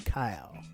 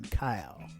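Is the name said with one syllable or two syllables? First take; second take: one syllable; one syllable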